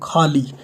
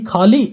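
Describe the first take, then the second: First: The two syllables are joined without a break. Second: There is a break between the two syllables. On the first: Something is empty or emptied. "ऐसे जोड़ना था इसको" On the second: Someone ate something. "ऐसे भी हम बोलते हैं"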